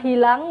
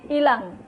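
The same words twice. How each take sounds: First: The word begins with an 'h' sound. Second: The word begins directly with a vowel. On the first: The speaker calls it right. "Dari kata hilang" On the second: The speaker calls it wrong. "kesalahan penghilangan fonem"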